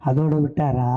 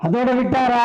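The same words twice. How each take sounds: First: Said in the usual way. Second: High, projected platform call; ringing orator's challenge; rousing rhetorical question. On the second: Real, not acted. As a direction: throw the question out to the crowd. Repeats question loudly to rouse crowd.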